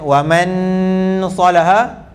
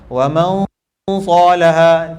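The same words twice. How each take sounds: First: The n is pronounced fully and clearly. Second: The n is skipped, going straight to s. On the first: "Tidak, sebab dia bunyi nun" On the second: "tu sebab kita dah letak hujung lidah di tempat sa"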